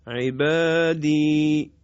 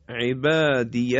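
First: عبادی long and settled; pausal form. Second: عبادی recited with a light final ya sound; عبادی with a sounded ij ending; connected form. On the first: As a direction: stop on عبادی, drawing out the final i. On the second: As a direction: say عبادی running on. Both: Shown as a demonstration.

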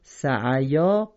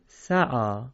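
First: سعیا slow, ی sounded; wrong reading. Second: سعا read sa'ā; correct reading. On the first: Teacher showing students what to avoid. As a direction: slowly demonstrate the mistaken سعیا. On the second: Teacher giving students the right form. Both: Shown as a demonstration. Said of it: "سعیا غلطه".

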